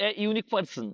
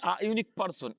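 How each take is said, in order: First: এ in এ unique person said as a short e; article said as e. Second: আ in আ unique person said as a short open a; article said as a. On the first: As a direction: open the article এ with an e sound. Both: Shown as a demonstration. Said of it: "কি?".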